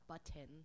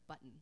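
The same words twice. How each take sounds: First: The middle T is clearly pronounced. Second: The middle T is swallowed, not clearly pronounced. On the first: "when people enunciate words that have two T's" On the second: "instead of saying button"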